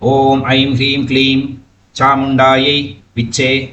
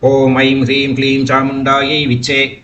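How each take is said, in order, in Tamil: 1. இடைவெளி விட்டு மூன்று பகுதிகளாகப் பிரித்துச் சொல்லலாம். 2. ஒரே மூச்சில் தொடர்ச்சியாகச் சொல்லலாம். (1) "இப்படி மூணு பாட்டா சொல்லிக்கலாம்" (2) "ஒன்னா சொல்லி விடலாம்"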